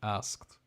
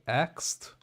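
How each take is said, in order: First: The s sound comes before the k. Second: The k sound comes before the s. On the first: "instead of asked" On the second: "like an A X E D"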